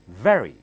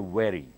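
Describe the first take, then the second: First: The first sound is made with teeth on lip. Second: The first sound is made without teeth on lip. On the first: The speaker calls it right. "You have to bite your lower lip with the upper teeth and blow out" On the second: The speaker calls it wrong. "Do not say very"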